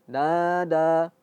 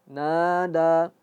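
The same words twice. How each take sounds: The two takes are said the same way.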